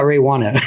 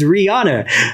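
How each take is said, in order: First: The name begins with 'ray' and has 'wah'. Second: The name begins with 'ree' and has 'ah'. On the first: The speaker calls it wrong. "name is not [name]" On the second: The speaker calls it right. "It's Rihanna"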